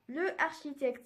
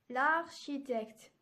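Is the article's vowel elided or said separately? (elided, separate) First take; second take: separate; elided. First: The article vowel is said before the noun. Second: The article vowel is dropped and linked. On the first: The speaker calls it wrong. "c'est faux" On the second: The speaker calls it right. "pour que la prononciation soit plus légère"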